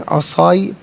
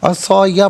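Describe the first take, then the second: First: The final ya is silent, without a vowel. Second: The final ya carries a vowel. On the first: The reader stops at this word. "वफ़ की सूरत में असाई पढ़ेंगे, यानी या का या की आवाज़ सुकून के साथ होगी" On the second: The reading continues without stopping. "असा या पढ़ेंगे"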